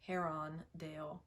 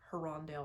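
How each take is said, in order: First: The name is said in separate parts. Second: The name is run together as one word. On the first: The speaker calls it right. "it's Herondale" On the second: The speaker calls it wrong. "like one word, and that's wrong"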